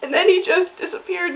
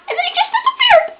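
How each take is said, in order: First: Said in the usual way. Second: Very high, fast squeal; high squeak. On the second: Real, not acted. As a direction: squeak it out in a rush, upset. Upset squeak at character's vanishing.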